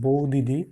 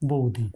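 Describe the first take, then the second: First: The di syllable is said twice. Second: The di syllable is said once.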